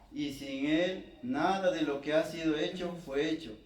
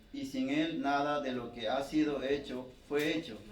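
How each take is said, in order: Both takes have the same delivery.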